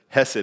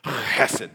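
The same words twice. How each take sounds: First: The word begins with a plain, soft h sound. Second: The word begins with a harsh, throaty sound. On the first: The speaker calls it wrong. "I tried to pronounce it hesed one time, and they said, no, that's not how it's pronounced" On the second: The speaker calls it right. "It's actually hesed"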